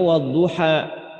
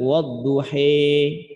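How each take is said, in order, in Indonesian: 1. Vokal akhirnya adalah 'a' terbuka. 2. Vokal akhirnya condong ke 'i'. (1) "kita bacanya wadduha" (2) "Bacaan imam yang lain ada yang baca dengan wadduhi"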